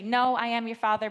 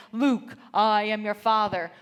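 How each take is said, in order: First: Lightly voiced Vader quote. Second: Loud, slow, booming Darth Vader. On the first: Shown as a demonstration. Speaker corrects her husband's movie misquote, loud light Vader impression. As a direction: set the misquote right with a hint of Vader. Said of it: "It's actually". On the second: Retold or imitated. Husband duels his son with lightsabers, booming Darth Vader. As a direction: play the movie villain in a lightsaber fight, drawn out and loud. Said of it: "my husband says".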